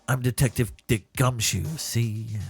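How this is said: It is a grizzled, sinister detective voice.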